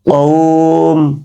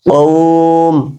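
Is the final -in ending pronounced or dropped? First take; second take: dropped; dropped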